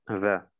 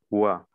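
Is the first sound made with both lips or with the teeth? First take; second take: teeth; both lips. First: The first sound uses the upper teeth on the lip. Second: The first sound is made with both lips rounded. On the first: The speaker calls it wrong. "als hättest du die Zähne benutzt" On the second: The speaker calls it right. "Du musst die beiden Lippen benutzen"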